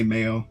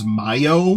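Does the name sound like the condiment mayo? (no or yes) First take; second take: yes; no. First: It sounds like the condiment mayo. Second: It does not sound like the condiment. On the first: This is the pronunciation people now associate with the name. "You just say Mayo" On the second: This is the originally intended pronunciation. "what I originally wanted it to be pronounced"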